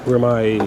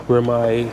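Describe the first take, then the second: No difference in how they are said.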